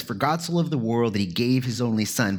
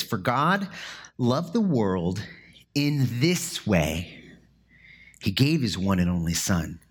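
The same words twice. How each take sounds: First: Said in the usual way. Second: Measured pauses land on "in this way"; paused, deliberate reading. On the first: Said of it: "many of the other ones says". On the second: Shown as a demonstration. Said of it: "the CSB translates it like this".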